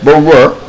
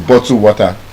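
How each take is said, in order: First: The t sounds are dropped, in a British-style accent. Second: The t sounds are clearly pronounced. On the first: "they do not pronounce single T when it's between two vowel sounds" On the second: "What I said is bottle water"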